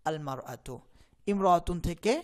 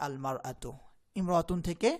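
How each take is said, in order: The two takes are said the same way.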